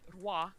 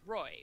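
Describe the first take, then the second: First: It sounds like 'rwah'. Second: It rhymes with 'boy'. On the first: The speaker calls it right. "it's supposed to be roi, as in like king" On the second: The speaker calls it wrong. "which you would think Roy"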